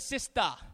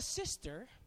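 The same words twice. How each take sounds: First: The word has an island pidgin pronunciation. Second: The word has a standard English pronunciation. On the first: "but you are known as a sister" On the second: "you are known not as a sister"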